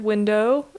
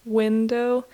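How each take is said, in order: First: Window with the weight moved onto DOW; unnatural second-syllable stress. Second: Window slowly, with normal weight on WIN; natural first-syllable stress. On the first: English speaker showing a weird emphasis, stress on DOW in window. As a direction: lean oddly on the end of window, win-DOW. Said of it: "it feels a little weird". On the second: English speaker showing the natural emphasis, stress on WIN in window. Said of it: "but there is a natural". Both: Shown as a demonstration.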